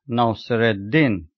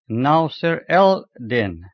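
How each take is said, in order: First: The L blends into a doubled D. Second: The L is sounded before the D. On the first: This is how it is actually spoken. "it is pronounced Nasir-ed-Din" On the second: This matches the written form. "in Arabic is written Nasir-el-Din"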